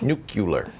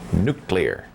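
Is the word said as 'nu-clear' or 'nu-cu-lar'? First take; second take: nu-cu-lar; nu-clear. First: The word is said as nu-cu-lar. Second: The word is said as nu-clear. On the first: The speaker calls it wrong. "not nuclear" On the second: The speaker calls it right. "it is pronounced nuclear"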